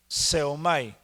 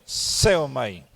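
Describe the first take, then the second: First: Said in the usual way. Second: Seomai with the E hit harder; seomai, leaning on SE; stress on the E. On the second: Shown as a demonstration. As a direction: punch the E in seomai, then fall away. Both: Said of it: "con acento en la E".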